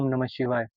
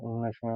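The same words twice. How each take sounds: First: It is spoken aloud, clearly audible. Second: It is mumbled quietly inside the mouth.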